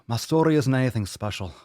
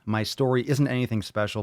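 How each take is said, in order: First: It is read with a slight English accent. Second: It is read in the speaker's plain voice.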